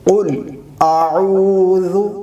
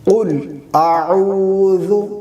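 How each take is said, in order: No difference in how they are said.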